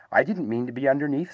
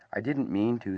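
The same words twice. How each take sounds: First: Mildly sad little voice; a touch of sadness, lifting at the end. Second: Understated sorrowful apology. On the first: Piglet answers Pooh's apology, mildly sad. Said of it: "said Piglet sadly". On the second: Pooh apologises for falling on Piglet, mildly sorrowful. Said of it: "said Pooh sorrowfully". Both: A narrator's reading.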